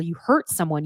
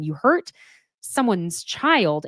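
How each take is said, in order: First: Said in the usual way. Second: Put-on hurt leaned on, then someone's child drawn out slowly; a deliberate, slowed hammer on hurt; stress on hurt. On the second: Shown as a demonstration. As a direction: press on hurt and slow right down for someone's child.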